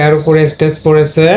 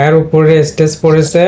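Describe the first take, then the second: No difference in how they are said.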